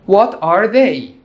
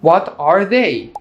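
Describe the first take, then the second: Both takes have the same delivery.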